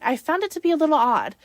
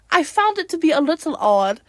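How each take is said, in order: First: It is said in the speaker's ordinary accent. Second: It is said in a put-on British accent.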